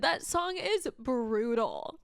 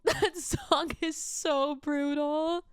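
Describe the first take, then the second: First: Said in the usual way. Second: Higher, slow, cracking with a laugh; real laughing tears; tearful crying. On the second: Real, not acted. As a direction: say "so brutal" through tears. Same words, tearful.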